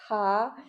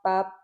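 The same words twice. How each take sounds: First: The p releases a puff of air. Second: The p is held back without a puff. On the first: "il y a comme un H" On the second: "je freine l'air"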